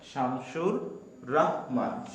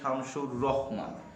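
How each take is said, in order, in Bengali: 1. পদবিটি একটি দীর্ঘ 'rah' ধ্বনি দিয়ে শুরু। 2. পদবিটি একটি হ্রস্ব 'roh' ধ্বনি দিয়ে শুরু। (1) "আমরা রাহমান বলবো" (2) "এই জায়গাটা কিন্তু আমরা অনেক সময় ভুল করি, আমরা এখানে বলি শামসুর রহমান"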